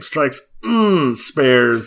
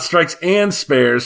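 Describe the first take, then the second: First: The middle word is reduced to an 'n' hum. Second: The middle word is a full 'and'. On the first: It names the game being discussed. "not and" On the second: It names a different game. "not not Strikes and Spares"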